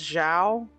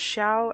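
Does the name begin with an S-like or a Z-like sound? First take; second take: Z-like; S-like. First: The name begins with a buzzing Z-like sound. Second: The name begins with a hissing S-like sound. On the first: The speaker calls it wrong. "with a Z instead of, like, an S type thing" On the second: The speaker calls it right. "an S type thing"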